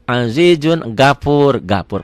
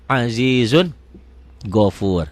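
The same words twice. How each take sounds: First: "gapur" with an open A, as a beginner misreads it; beginner's mistaken "gapur"; wrong reading gapur. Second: "gofur" with a rounded O; proper Quranic "gofur" with an O; correct gofur. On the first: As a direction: say "gapur" with a flat a instead of o. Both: Shown as a demonstration. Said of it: "gafurnya jadi gofur".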